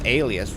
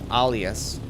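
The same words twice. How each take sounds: First: It is pronounced the English way. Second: It is pronounced the other language's way. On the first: "I think in English it's alias" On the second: "But in my language, it's it's alias"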